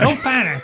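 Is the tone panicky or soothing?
panicky. It is said in a panicky, trembling way.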